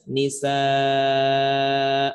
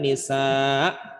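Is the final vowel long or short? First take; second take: long; short. First: The final vowel is drawn out long. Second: The final vowel is cut short. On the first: The speaker calls it right. "cara bacanya nisaa" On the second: The speaker calls it wrong. "Bukan dibaca nisa"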